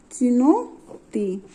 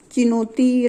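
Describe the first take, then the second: First: चिनोती drawn out very slowly, syllable by syllable; slow dictation pace; slow spelling-out. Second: Said in the usual way. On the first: Shown as a demonstration. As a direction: stretch चिनोती out slowly for the class. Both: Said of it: "क्या है दूसरा उदाहरण?".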